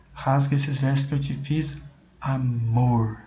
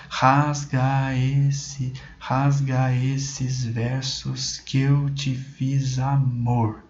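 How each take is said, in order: First: Said in the usual way. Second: "rasga esses versos que eu te fiz, amor" drawn out very slowly, each stress felt; stretched, sing-song reading of "rasga esses versos que eu te fiz, amor"; slow rhythmic recital. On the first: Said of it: "Então aqui, ó, a última sílaba tônica". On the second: Shown as a demonstration. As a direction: recite the line slowly to let its music be heard. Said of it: "a gente vê muito pela questão da sonoridade".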